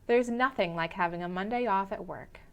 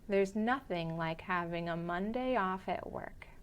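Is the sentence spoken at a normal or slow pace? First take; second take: normal; slow. First: It is spoken at a normal conversational speed. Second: It is spoken a little more slowly than normal. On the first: "the first time at a normal pace" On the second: "the second time a little slower"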